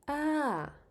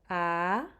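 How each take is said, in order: First: The pitch falls from high to low. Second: The pitch starts mid and goes up high.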